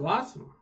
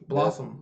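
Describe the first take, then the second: First: It is said in a high voice. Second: It is said in a normal voice.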